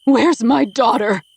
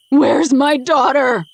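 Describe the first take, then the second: First: Slow, loud, high scream; slow, loud mother screaming at her daughter's captor. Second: Even louder, slow, high wild scream. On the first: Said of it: "Kira screams at him". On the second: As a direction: lose all control and shriek it slowly. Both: Acted.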